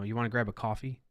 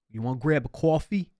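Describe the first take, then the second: First: Said in the usual way. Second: Loud, high New York "You wanna grab a coffee?"; brash New York street voice; New York accent. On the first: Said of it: "we say coffee". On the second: Shown as a demonstration. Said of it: "In New York, that's how we talk".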